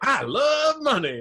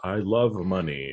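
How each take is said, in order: First: It is said with excited, animated intonation. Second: It is said in a flat, unexcited tone.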